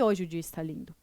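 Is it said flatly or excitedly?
flatly. It is said flatly, like a plain statement.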